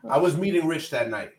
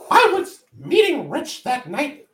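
First: It is said in the speaker's ordinary voice. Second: It is said in a put-on imitation voice. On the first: "I can't do it in that voice" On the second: "I'm gonna talk like this just because he was"

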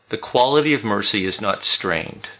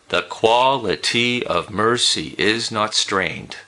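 First: It is read with natural speech rhythm. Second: It is read with a strict da-DUM beat.

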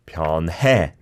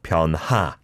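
First: The word ends in an 'ae' vowel. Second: The word ends in an 'a' vowel. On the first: The speaker calls it right. "변해, not 변하" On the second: The speaker calls it wrong. "not 변하"

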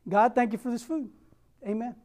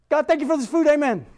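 First: The prayer is said at a normal pace. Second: The prayer is rushed out very fast. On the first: "I know it doesn't sound bad" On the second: "but I said it a lot faster"

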